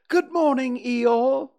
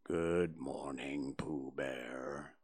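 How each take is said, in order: First: Much higher and louder bright little bear; cheerful Pooh. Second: Very low, slow and soft donkey; gloomy. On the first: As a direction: chirp it out like a friendly bear. Pooh greets Eeyore. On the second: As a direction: sigh it out like a sad old donkey. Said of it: "said Eeyore gloomily". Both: A narrator's reading.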